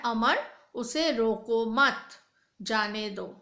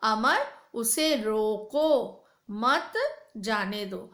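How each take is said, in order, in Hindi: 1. विराम 'मत' के बाद आता है, 'जाने दो' से पहले। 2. विराम 'रोको' के बाद आता है, 'मत जाने दो' से पहले। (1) "पहले में बोला गया है अमर उसे रोको मत, जाने दो" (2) "उसे रोको के बाद पूर्ण विराम, मत जाने दो"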